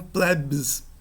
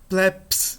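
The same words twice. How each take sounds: First: The word ends with a voiced 'bs' sound. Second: The word ends with a voiceless 'ps' sound. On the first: The speaker calls it wrong. "não" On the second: The speaker calls it right. "A pronúncia desse B S em posição final é como se fosse um P S"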